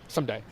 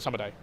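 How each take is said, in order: First: The word is said in its casual everyday form. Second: The word is said in its full careful form. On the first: This is the form people actually use. The speaker calls it right. "Say someday. ... that's a slang" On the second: This is the textbook form that nobody uses. The speaker calls it wrong. "don't say summer day"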